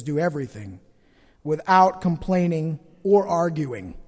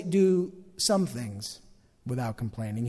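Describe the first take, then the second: First: "Do everything" with Do and everything hit, then slow; stress on everything. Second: "some things" said slowly and low, trailing soft; stress on some. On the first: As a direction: land hard on "everything". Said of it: "He says". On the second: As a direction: lean on "some" as the wrong version. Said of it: "Paul doesn't say". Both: Shown as a demonstration.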